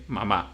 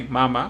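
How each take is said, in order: First: Mamá stressed on the final syllable, ma-MÁ; Spanish stress. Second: Mama stressed on the first syllable, MA-ma, the way English speakers say it. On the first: Teacher giving the Spanish stress after the English one. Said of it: "we say mamá". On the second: Teacher showing the English way before the Spanish one. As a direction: say mama with the weight on the front syllable. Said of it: "Because you say mama". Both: Shown as a demonstration.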